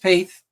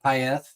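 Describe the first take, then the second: First: The name is given a plain, simple pronunciation. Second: The name is given a foreign-sounding pronunciation. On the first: This is how the owner of the name says it. The speaker calls it right. "no, just Paith, straightforward, very easy" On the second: This is how other people mistakenly say it. The speaker calls it wrong. "people try to make it it foreign like"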